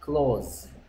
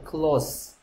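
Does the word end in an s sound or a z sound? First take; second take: z; s. First: The word ends with a buzzing z sound. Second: The word ends with a hissing s sound. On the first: It means to shut something. "닿다일 때는 close, close. Z 발음은 Z 발음" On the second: It means near or intimate. "가까운 친구 할 때는 close, close friend, close friend. S가 S 발음됩니다"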